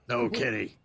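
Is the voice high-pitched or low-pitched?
low. It is said in a low, firm voice. The speaker calls it right. "You know, it's"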